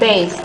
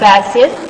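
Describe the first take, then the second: First: The word is said with one syllable. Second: The word is said with two syllables. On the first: The speaker calls it right. "So that's that's based" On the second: The speaker calls it wrong. "not basic"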